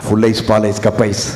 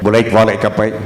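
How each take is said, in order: First: Each word is pronounced fully and distinctly. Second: The words are slurred and run together. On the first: The items being sold are understandable. The speaker calls it right. "ஏய் தெளிவா சொல்டா" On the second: The listener cannot tell what is being sold. The speaker calls it wrong. "என்ன இவன் விற்கிறான்?"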